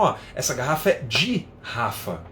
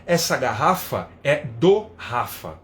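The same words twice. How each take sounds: First: "de Rafa" with de sounded dji, as in the Nordeste; Northeastern way. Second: "do Rafa" said with do, slow and clear, São Paulo usage; São Paulo style "do Rafa", said slowly. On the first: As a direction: say "é de Rafa" with de as dji, Paraíba style. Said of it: "eles falam". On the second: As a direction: spell out "é do Rafa" with the article do, slowly. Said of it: "a gente fala". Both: Shown as a demonstration.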